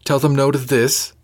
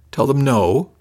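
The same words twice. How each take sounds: First: Incredulous echo, voice rising; rising disbelief. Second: Higher, a little louder, incredulous; incredulous echo, voice rising; rising disbelief. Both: A narrator's reading. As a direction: repeat it back in disbelief. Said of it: "her voice rising a little".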